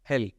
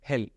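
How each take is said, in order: No difference in how they are said.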